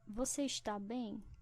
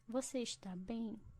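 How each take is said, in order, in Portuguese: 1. O verbo é dito por completo, em duas sílabas. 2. O verbo é dito por completo, em duas sílabas.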